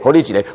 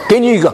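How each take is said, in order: First: It is spoken in Taiwanese Hokkien. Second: It is spoken in a Shandong dialect. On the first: "听不懂台语是吧" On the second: "我用山东话"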